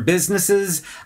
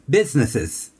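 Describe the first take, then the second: First: The s sounds are pronounced clearly. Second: The s sounds are pronounced with a lisp.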